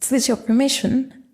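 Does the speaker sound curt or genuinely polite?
polite. The tone is warm and genuinely polite. The speaker is truly asking for permission. "whether it's genuinely polite"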